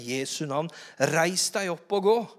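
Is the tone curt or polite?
polite. It sounds polite and kind. The speaker is courteous toward the man. The speaker calls it right. "Han var kanskje høflig da"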